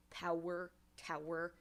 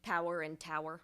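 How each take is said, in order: First: "Power" and "tower" each said as separate words, weight on POW and TOW; slow, deliberate feminine rhyme demo, "Power" then "tower"; stress on first syllable. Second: Said in the usual way. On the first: Shown as a demonstration. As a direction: lean on POW in "Power" and TOW in "tower", let the second syllable fall away. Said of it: "the first syllable is the one that's actually the, the emphasized one". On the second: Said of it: "the most basic example would be".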